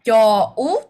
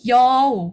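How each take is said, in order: First: The vowel sounds are said as separate parts. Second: The vowel sounds are joined into one unit. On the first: The speaker calls it wrong. "bukan yau" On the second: The speaker calls it right. "Kayak satu kesatuan sama, ... jadi kayak disambung gitu ya"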